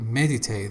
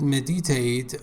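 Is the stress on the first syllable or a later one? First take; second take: first; later. First: The stress is on the first syllable. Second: The stress is not on the first syllable. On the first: The speaker calls it right. "The first syllable is stressed" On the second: The speaker calls it wrong. "you said meditate"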